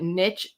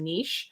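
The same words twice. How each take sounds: First: The word is said in a plain English way. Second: The word is said in a French-styled way. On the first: It is the original form of the word. The speaker calls it right. "niche is the accurate and original pronunciation" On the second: It is meant to sound fancier. The speaker calls it wrong. "Frenchified the original word niche to make it sound fancier"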